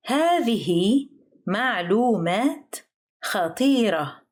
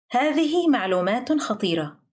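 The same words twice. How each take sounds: First: Careful word-by-word teaching pace on "هذه معلومات خطيرة". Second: Said in the usual way. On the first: Shown as a demonstration. Example phrase, slow teaching take.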